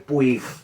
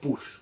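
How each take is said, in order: First: The name ends with a hard g sound. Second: The name ends with an sh sound. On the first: This is the everyday form used among friends. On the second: This is how the name should properly be pronounced.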